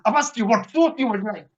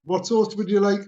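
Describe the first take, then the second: First: Imitating an impatient drive-through worker; impatient repeat. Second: Drive-through worker's everyday question; routine question. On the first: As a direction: repeat the question insistently, mildly testy. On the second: Retold or imitated. Drive-through worker asks customer for sauce, routine. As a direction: ask it evenly, as a routine order query. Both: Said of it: "she's going".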